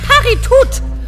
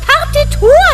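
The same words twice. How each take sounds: First: The final T is clearly pronounced. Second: The final T is left silent. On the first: The speaker calls it wrong. "nicht Partitur" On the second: The speaker calls it right. "Es heißt Partitur ... im Französischen ist das T immer stumm"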